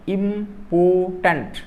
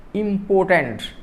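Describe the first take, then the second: First: "important" slowly, in three syllables; split into syllables. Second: Said in the usual way. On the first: Shown as a demonstration. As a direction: draw out "important" as im-por-tant. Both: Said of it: "three syllables".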